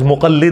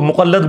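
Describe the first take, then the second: First: The last vowel is an 'i' sound. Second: The last vowel is an 'a' sound. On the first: The speaker calls it right. "लफ्ज मुकल्लिद होता है" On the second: The speaker calls it wrong. "लोग मुकल्लद बोलते हैं"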